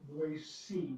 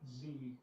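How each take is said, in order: First: The middle consonant is a soft s sound. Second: The middle consonant is a buzzing z sound. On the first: It marks the speaker as a local. The speaker calls it right. "you pronounce it Boise" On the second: It marks the speaker as a tourist. The speaker calls it wrong. "not Z"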